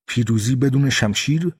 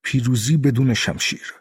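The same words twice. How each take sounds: First: پیروزی بدون شمشیر turned into a scoffing question, rising at the end; mocking question. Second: پیروزی بدون شمشیر as a settled statement, falling at the end; calm statement. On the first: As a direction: throw the words back with a rising, scornful question tune. (پرسش تمسخرآمیز با لحن بالارونده) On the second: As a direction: state it calmly, the pitch dropping on شمشیر. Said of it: "بوکودون جواب داد". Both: A narrator's reading.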